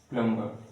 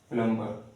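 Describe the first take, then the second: The two takes are said the same way.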